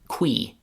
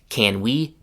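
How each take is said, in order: First: Can shrinks to a k sound joined to we. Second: Can is said in full before we.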